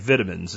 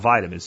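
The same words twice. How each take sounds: First: It is said with a British pronunciation. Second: It is said with an American pronunciation. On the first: "the way British say vitamins" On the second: "instead of vitamins"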